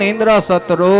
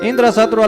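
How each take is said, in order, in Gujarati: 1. વાક્યમાં એક સ્વર લાંબો ખેંચાય છે. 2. વાક્યમાં બધા સ્વર ટૂંકા રાખવામાં આવે છે. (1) "એમ દીર્ઘ કર્યું" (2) "ઇન્દ્ર શત્રુ એટલે ઇન્દ્રનો શત્રુ"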